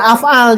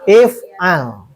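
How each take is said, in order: First: The word begins with an 'a' vowel. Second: The word begins with an 'i' vowel. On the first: The speaker calls it wrong. "jangan af'al, jangan" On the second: The speaker calls it right. "Tapi if'al"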